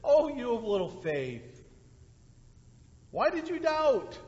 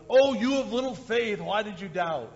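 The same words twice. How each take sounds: First: Gentle tender reading. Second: Mock harsh reading. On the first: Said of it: "That's what I think the response here by Jesus is". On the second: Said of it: "coming kind of in a harsh way". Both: Shown as a demonstration.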